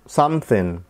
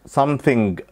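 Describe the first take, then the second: First: The word ends without any g sound. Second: The word ends with a clear g sound. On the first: The speaker calls it right. "تبقى something something" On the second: The speaker calls it wrong. "بلاش تقول الجي"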